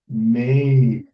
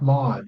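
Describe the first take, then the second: First: The vowel is a long 'ay' sound. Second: The vowel is a short 'ah' sound. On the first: The speaker calls it right. "it's made" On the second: The speaker calls it wrong. "It's not mod"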